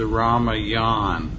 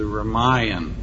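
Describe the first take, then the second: First: The last syllable sounds like 'yawn'. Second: The last syllable does not sound like 'yawn'. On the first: The speaker calls it wrong. "it is not known as the Ramayan. Lord Ram doesn't get tired and yawn" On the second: The speaker calls it right. "but it's the Ramayan"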